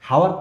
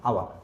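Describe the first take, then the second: First: The word begins with an h sound. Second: The word begins with a vowel sound. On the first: The speaker calls it wrong. "হাওয়ার তো না" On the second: The speaker calls it right.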